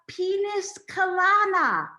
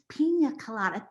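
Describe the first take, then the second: First: The first word has an added final s sound. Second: The first word ends in a plain vowel. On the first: The speaker calls it wrong. "in her best deaf voice, she says" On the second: The speaker calls it right. "it's pronounced pina colada"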